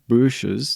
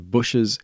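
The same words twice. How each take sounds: First: The first vowel is a long 'ooh' sound. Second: The first vowel is short, as in 'pushes'. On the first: The speaker calls it wrong. "It's more like ooh, bushes. That's wrong" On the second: The speaker calls it right. "So it's much closer to pushes"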